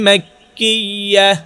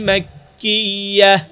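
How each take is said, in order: No difference in how they are said.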